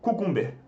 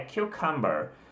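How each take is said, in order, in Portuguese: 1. A palavra é pronunciada como se adivinha pela escrita. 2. A palavra tem a pronúncia padrão do inglês. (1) "você gravou cucumber" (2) "a pronúncia é cucumber"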